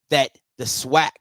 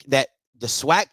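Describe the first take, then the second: No difference in how they are said.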